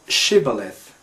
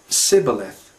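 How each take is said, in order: First: The word begins with an sh sound. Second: The word begins with an s sound. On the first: The speaker calls it right. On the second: The speaker calls it wrong.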